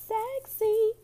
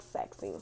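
First: "Sexy" sung out much higher. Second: "sexy" breathed much lower and softer; whispered sexy. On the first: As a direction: lift "Sexy" up high and playful. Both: Shown as a demonstration.

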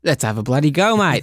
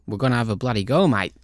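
First: Louder, hammed-up Australian accent. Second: Bad Australian impression of the manager; a hammed-up Aussie twang; Australian accent. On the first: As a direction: go full Aussie on it, badly. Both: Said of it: "awful Australian accent".

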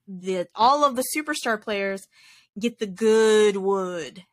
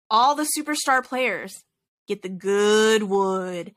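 First: Slow, stretched "good wood" with weight on good; emphasis on good wood. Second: Stretched, slow "good wood" with weight on good; drawn-out good wood. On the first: Retelling the announcer's line, slow stress on good wood. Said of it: "he had to put, like, the emphasis on that". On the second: Sports announcer hamming up the line, slow on "good wood". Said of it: "he had to say it like that". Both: Retold or imitated.

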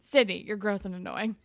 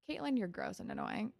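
First: Sydney louder, with a rising tune; stress on Sydney. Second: Said in the usual way. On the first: Retold or imitated. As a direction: correct it by hitting Sydney. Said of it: "Never Caitlin". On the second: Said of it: "Or not Caitlin".

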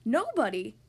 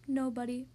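First: Louder, startled question; astonished gasp. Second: Subdued, mournful character voice; mournful, melancholy. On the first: Mister Happy hearing the stranger's name, gasping in surprise. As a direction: blurt it out in astonishment. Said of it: "gasped Mister Happy". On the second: See-through man replying to Mister Happy, mournfully. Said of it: "in a mournful, melancholy voice replied". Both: Acted.

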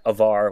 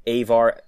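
First: "Avar" said as uh-VAR; first-syllable schwa. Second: "Avar" said as AY-var; long first A. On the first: Host showing accepted variants, "Avar" as uh-VAR. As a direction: open "Avar" on a short, weak uh. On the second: Host showing accepted variants, "Avar" as AY-var. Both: Shown as a demonstration. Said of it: "you can pronounce".

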